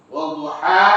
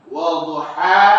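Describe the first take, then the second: No difference in how they are said.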